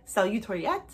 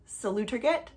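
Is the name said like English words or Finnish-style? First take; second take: Finnish-style; English. First: It is said with a Finnish-style pronunciation. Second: It sounds like the English words 'salute or get'. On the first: "the way she pronounced it in her recent video was more like" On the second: "It's spelt kind of like salute or get"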